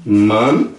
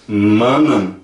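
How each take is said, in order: First: Man said short, one syllable; singular man. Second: Manan with the same vowel as man; plural manan. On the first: Teacher models man, the singular. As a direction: say man plainly. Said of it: "Se eu falar man". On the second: Teacher models plural manan right after man. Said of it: "também falo manan". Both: Shown as a demonstration.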